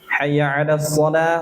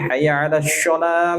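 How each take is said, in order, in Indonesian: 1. Bunyi s pada shalah itu s emfatik yang berat. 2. Bunyi s pada shalah itu bunyi 'sh'.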